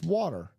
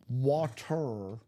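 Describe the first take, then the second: First: The middle consonant sounds like a D, Chicago-style. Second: The middle consonant is a clear T sound.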